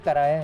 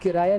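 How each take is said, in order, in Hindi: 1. पहला स्वर 'a' जैसा सुनाई देता है। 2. पहला स्वर 'i' जैसा सुनाई देता है। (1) "बल्कि कराया है" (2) "सही लफ्ज किराया नहीं है"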